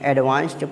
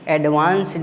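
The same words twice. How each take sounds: First: The ending is a t sound. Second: The ending is a d sound. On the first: The speaker calls it right. "बल्कि एडवांस्ड पढ़ेंगे" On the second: The speaker calls it wrong. "इसमें एडवांस्ड नहीं पढ़ेंगे"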